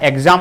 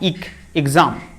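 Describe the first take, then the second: First: The first syllable starts with an 'eg' sound. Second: The first syllable starts with an 'ig' sound. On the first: The speaker calls it wrong. "यह एग्जाम नुह" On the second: The speaker calls it right. "इक एग्जाम मोर एग्जाम"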